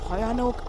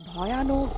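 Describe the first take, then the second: No difference in how they are said.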